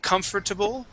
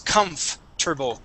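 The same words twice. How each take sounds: First: The 'or' syllable is fully pronounced. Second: The 'or' syllable is skipped. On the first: The speaker calls it wrong. "Instead of saying comfortable" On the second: The speaker calls it right. "So we skip over that O R"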